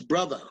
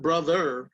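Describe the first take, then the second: First: The word ends with an 'uh' sound. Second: The word ends with an 'er' sound. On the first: The speaker calls it right. "it's brother. B R O T H A" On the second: The speaker calls it wrong. "it's not brother"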